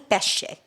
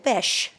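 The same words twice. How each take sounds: First: It is said with a standard Italian pronunciation. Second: It is said with a dialect pronunciation. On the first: This is the proper Italian form. "the correct Italian pronunciation would be" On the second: This is how the family says it at home. "in dialect you say"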